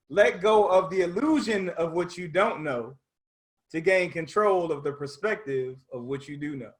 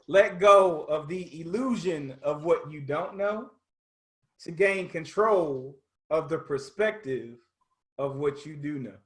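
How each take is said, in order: First: It is said at a faster pace. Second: It is said at a slower pace.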